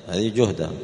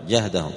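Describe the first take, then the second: First: "جهدهم" said juhdahum, with a rounded u after the j; juhdahum with damma. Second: "جهدهم" said jahdahum, with an open a after the j; jahdahum with fatha. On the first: Teacher sets the Quraysh reading "جهدهم" with damma, juhdahum. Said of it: "بالضم لغة". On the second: Teacher gives al-A'raj's reading "جهدهم" with fatha, jahdahum. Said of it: "وقرأ الأعرج بالفتح". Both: Shown as a demonstration.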